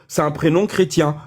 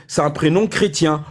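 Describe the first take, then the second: No difference in how they are said.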